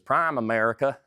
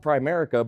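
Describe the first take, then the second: First: The name is said as two separate words. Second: The name is said as one blended word. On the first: The speaker calls it wrong. "the more uh, natural pronunciation is Prime America" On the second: The speaker calls it right. "it's called Primerica"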